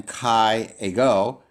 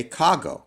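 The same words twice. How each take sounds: First: "kai ego" said as two separate words. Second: "kago" run together as one smooth word, KAH-go; smooth elided form. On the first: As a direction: keep "kai ego" apart, vowel against vowel. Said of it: "rather than kai ego". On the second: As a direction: merge kai and ego into "kago". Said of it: "say this more smoothly". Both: Shown as a demonstration.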